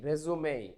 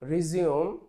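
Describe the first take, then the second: First: The word ends in an 'ay' vowel sound. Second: The word ends in an 'oom' sound. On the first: It is a noun meaning a life summary. "এটার উচ্চারণ গে রেজুমে" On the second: It is a verb meaning to start again. "যদি আমরা রিজিউম বলি"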